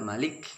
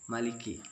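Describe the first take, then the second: First: The word ends abruptly on the k sound. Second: The k is clear and followed by a vowel. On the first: The speaker calls it wrong. "jangan malik" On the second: The speaker calls it right. "maliki agak dijelaskan kafnya"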